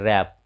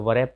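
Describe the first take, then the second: First: The word starts without any w sound. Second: The word starts with an audible w sound. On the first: The speaker calls it right. "जैसे यहाँ देखिए रैप" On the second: The speaker calls it wrong. "इसे वरैप पढ़ना गलत है"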